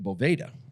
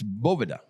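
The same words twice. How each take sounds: First: The middle consonant sounds like a V. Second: The middle consonant sounds like a B. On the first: The speaker calls it wrong. "they were pronouncing it Boveda" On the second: The speaker calls it right. "Like almost like there's a B in the middle"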